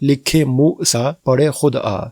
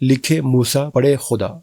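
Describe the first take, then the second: First: The last word is split into two words. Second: The last word is run together as one word. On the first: The writer must come and read it himself. The speaker calls it right. "इसको दुरुस्त इस अंदाज में पढ़ा जा सकता है" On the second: Only God can read it. The speaker calls it wrong. "ये जुमला भी बिल्कुल गलत है"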